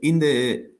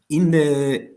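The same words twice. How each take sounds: The two takes are said the same way.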